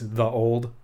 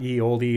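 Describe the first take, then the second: First: The first word starts with a th sound. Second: The first word starts with a y sound. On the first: The speaker calls it right. "that Y is a thorn, which actually makes a th sound" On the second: The speaker calls it wrong. "So it's not ye oldie"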